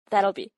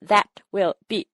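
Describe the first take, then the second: First: The words are contracted and run smoothly together. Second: Each word is said separately, like a robot. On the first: The speaker calls it right. "이렇게 스무스하게 발음을 해요" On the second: The speaker calls it wrong. "이렇게 로봇처럼 끊어서 발음하기보다는"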